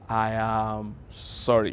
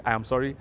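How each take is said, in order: First: Slow, drawn-out, earnest "I am sorry"; slow sincere apology. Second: Said in the usual way. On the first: Shown as a demonstration. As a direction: let every word sink in, heartfelt.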